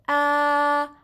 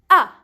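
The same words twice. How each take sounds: First: The pitch stays level and flat. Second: The pitch falls sharply from high. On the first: "you go straight with your voice" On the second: "You go from up, up, up, then you go down with your voice"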